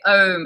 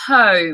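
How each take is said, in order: First: The word starts without an h sound. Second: The word starts with a breathy h sound. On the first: The speaker calls it wrong. "you would say home" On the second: The speaker calls it right. "instead of home"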